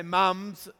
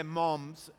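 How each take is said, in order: First: "mums" said the Australian way, drawn out, as spelled M U M; Australian-style mums. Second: "moms" said the American way, as spelled M O M; American-style moms. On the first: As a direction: say "mums" with a short U vowel. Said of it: "We say mums". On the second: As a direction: say "moms" with an O vowel. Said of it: "Or you say moms". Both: Shown as a demonstration.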